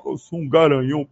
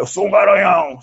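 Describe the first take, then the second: First: Lower, put-on mocking brag; mock the macho boast; mocking stud voice. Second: Proud, louder bragging; boastful stud brag. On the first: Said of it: "você é o". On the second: Retold or imitated. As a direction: puff up and boast. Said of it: "por mais que você fale".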